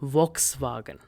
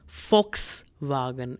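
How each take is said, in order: First: The word begins with a V sound. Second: The word begins with an F sound. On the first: The speaker calls it wrong. "and not Volkswagen" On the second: The speaker calls it right. "its correct pronunciation is Volkswagen"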